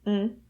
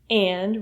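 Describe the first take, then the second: First: The word is reduced to just an n sound. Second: The word is said in full with its vowel.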